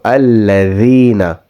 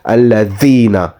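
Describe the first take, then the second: First: The 'dh' sound is soft and light. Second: The 'dh' sound is hard and harsh. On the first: The speaker calls it right. "place your tongue between your top and bottom teeth, but do not press on it" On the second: The speaker calls it wrong. "squish your tongue because it will then sound like alladhina. It will be a very harsh or hard sound"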